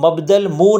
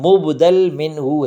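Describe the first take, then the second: First: The term is read as 'mabdal munh'. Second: The term is read as 'mubdal minhu'. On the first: The speaker calls it wrong. "इसको मबदल मुँह नहीं पढ़िएगा" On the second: The speaker calls it right. "ये लफ्ज़ मुबदल मिन्हू है"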